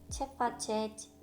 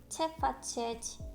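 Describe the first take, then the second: Both takes have the same delivery.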